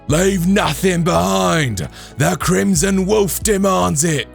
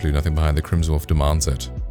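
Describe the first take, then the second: First: It is said in a put-on bandit voice. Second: It is said in the speaker's normal voice.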